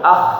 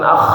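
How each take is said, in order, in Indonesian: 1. Bunyi kh itu halus dan ringan, tanpa terdengar serak. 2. Bunyi kh itu kasar dan serak, seperti orang membersihkan dahak. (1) "tapi ah" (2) "tidak terlalu kasar, jangan ah, bukan ah"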